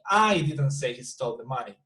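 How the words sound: The stress falls on the word I. "I'm playing emphasis on me"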